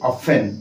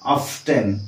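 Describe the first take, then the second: First: The t sound is silent. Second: The t sound is pronounced. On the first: "ଆମେ ଟି କୁ ଉଚ୍ଚାରଣ କରନ୍ତି ନାହିଁ" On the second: "ଟି କୁ ମଧ୍ୟ ଉଚ୍ଚାରଣ କରିବାରେ ଆପଣ ଶୁଣିବେ"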